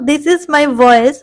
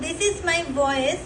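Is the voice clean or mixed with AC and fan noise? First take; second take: clean; noisy. First: Close, clean sound with little background noise. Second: Room sound with audible air conditioner and fan noise. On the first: The speaker calls it right. "this is my voice with the mic" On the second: The speaker calls it wrong. "this is my voice without the mic and you can listen the sound of the A C and the fan"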